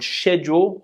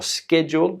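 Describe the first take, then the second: First: It is said in a British accent. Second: It is said in an American accent.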